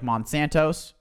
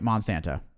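First: The word is said with an extra s sound. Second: The word is said without an extra s sound. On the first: The speaker calls it wrong. "I don't believe there's an S in Monsanto" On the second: The speaker calls it right. "You're right, Monsanto. Definitely right"

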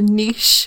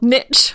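First: The word is said in a non-American way. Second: The word is said in an American way.

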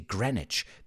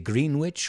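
First: The middle 'w' sound is silent. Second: The middle 'w' sound is pronounced. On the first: The speaker calls it right. "we say Greenwich" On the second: The speaker calls it wrong. "we don't say Greenwich"

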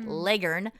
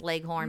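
First: The second syllable sounds like 'ern'. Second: The second syllable sounds like 'horn'. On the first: "but legern" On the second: "it was not pronounced leghorn"

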